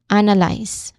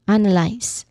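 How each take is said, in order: The two takes are said the same way.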